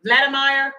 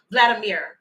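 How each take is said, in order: First: Vladimir said as VLAD-uh-MY-er; attempted pronunciation. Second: Vladimir said as VLAD-uh-MEER; corrected pronunciation. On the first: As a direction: say "Vladimir" with a long "eye" in the last part, ending "myer". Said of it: "if I said it right this time". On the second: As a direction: say "Vladimir" with a falling "meer" at the end. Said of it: "Okay, thank y'all". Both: Shown as a demonstration.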